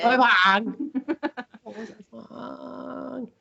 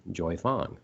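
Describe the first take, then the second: First: High-pitched mock Chinese accent with laughter. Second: Said in the usual way. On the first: Shown as a demonstration. Host showing different ways to say it, mock Chinese accent. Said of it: "you have to say it in an". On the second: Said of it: "I never said it normally either".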